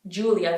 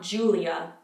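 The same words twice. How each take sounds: First: The I sound is soft and light. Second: The I sound is strongly pronounced. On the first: The speaker calls it right. "In the Italian version, it's not as harsh" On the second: The speaker calls it wrong. "not Julia"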